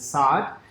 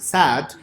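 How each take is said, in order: First: It does not sound like the word 'sad'. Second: It sounds like the English word 'sad'. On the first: The speaker calls it right. "The way you pronounce that is Saad" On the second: The speaker calls it wrong. "some people pronounce it sad"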